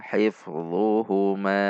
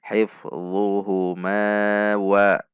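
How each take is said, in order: First: "Hifdhuhuma" ending on a long held ma; stopping recitation. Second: "Hifdhuhuma" with long ma, carried on into "wa"; joined recitation. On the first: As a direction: draw out the final ma of "Hifdhuhuma" and stop. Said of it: "Ketika waqaf juga sama". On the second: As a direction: draw out "Hifdhuhuma" slowly, then link "wa". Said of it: "dibaca waqaf maupun dibaca wasol". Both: Shown as a demonstration.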